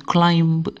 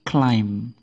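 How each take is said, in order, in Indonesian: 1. Bunyi B dilafalkan di akhir. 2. B terakhir tidak dibaca. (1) "bukan climb" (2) "Jadi B-nya tidak ikut dibaca"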